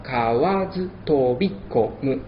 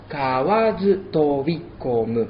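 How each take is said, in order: First: Kawazu tobikomu slow, end shortened like an esdrújula; syllable dropped. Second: Kawazu tobikomu slowly, syllable by syllable; slow Japanese. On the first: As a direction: clip the ending of tobikomu. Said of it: "se le restaría una sílaba". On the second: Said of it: "El segundo verso". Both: Shown as a demonstration.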